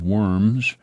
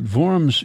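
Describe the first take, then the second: First: It is said like the English word worms. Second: It is said the German way, starting with V. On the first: It is the funny school pronunciation. The speaker calls it wrong. "You pronounced it Treaty of Worms" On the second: It is the city's real name. The speaker calls it right. "But Worms is one of the oldest cities in Germany"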